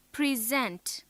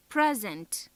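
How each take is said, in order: First: Pri-ZENT, weight on the last syllable; stress on second syllable. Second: PRE-sent, short e in a stressed first syllable. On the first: Teacher shows the verb present, second syllable stressed. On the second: Teacher shows the noun present, first syllable stressed. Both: Shown as a demonstration. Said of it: "Note how the stress on different syllables".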